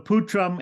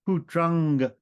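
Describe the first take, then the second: First: The word ends with an m sound. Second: The word ends with an ng sound. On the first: "putram ending in an M" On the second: "the Anushwara can be pronounced like a guttural nasal"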